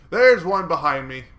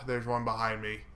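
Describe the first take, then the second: First: Much louder, higher warning shout. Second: Said in the usual way. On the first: Real, not acted. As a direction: yell it out as a warning. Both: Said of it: "repeated louder".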